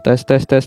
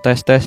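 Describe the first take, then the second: First: The voice sounds slightly fuller and thicker. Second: The voice sounds normal with its full body. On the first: "suara saya sedikit lebih gemuk ya teman-teman. Sedikit lebih kandel, tebal" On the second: "suara saya ada bodinya lagi"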